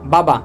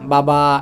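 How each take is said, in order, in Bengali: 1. স্বরধ্বনিগুলো ছোট রাখা হয়। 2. স্বরধ্বনিগুলো লম্বা করে টানা হয়। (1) "আমি কিন্তু একটাও কিন্তু টান দিই নাই" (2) "এরকম টান মারে না"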